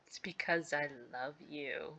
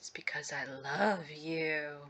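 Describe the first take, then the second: First: Said in an ordinary, plain reading voice. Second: Said in a creepy, obsessive put-on voice.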